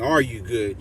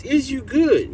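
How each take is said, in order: First: "Are you good?" said in standard English, low and calm; proper English. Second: "Is you good?" with "is", said higher and punchy; slangy "Is you good?", leaning on "good"; slang phrasing. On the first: Correcting himself to the proper "Are you good?" for the viewers. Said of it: "I know I should be saying". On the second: Streamer stressing the slang "Is you good?" to his chat. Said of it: "But we emphasizing this". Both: Shown as a demonstration.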